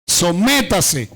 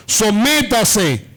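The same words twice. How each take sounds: First: "sométase" slow, E stressed with force; forceful stress. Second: "Sométase" slow, stress hard on the E of "Sométase"; forceful stress. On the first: Preacher repeating the verse for his church, stress on "sométase". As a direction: lean on the E in "sométase", slow and firm. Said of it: "acentuado en la E". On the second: Preacher quoting Romans to his congregation, forceful stress on "Sométase". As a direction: drag out "Sométase", punching the E with force. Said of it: "lo dice con fuerza, acentuado en la E". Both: Shown as a demonstration.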